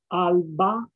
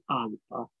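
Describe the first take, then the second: First: The middle consonant is a clear b sound. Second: The middle consonant sounds close to a p.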